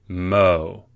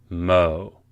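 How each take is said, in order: Both takes have the same delivery.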